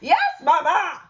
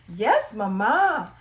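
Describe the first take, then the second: First: It is said very loudly. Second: It is said quietly.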